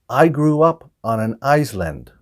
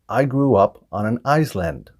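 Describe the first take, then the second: Both takes have the same delivery.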